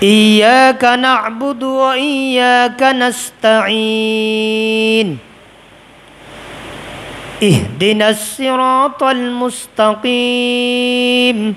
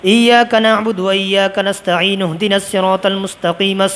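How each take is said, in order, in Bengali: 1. আয়াতগুলোর মাঝে বিরতি আর শ্বাস আছে। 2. আয়াতগুলো শ্বাস ছাড়াই একসাথে চলে। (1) "থামতে হবে। ... সাতবার শ্বাস নিতে হবে" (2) "তিনবারে শেষ। এইভাবে এই সূরাটি সালাতে পড়া নিষেধ।"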